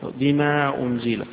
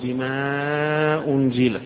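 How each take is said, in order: First: The long vowel is held briefly, about two counts. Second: The long vowel is held longer, about four counts. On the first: "يقصر" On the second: "يوسط"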